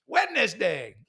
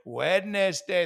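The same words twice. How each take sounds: First: "Wednesday" as WED-NES-DAY, every letter said; mock over-pronounced "Wednesday". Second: "Wednesday" said slowly, WED-NES-DAY again; slow deliberate "Wednesday". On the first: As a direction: spell out "Wednesday" in speech. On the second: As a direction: drag out "Wednesday". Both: Shown as a demonstration. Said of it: "Not Wednesday".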